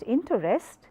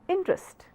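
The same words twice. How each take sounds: First: It is said with three syllables. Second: It is said with two syllables. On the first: The speaker calls it wrong. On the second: The speaker calls it right. "two syllabic words"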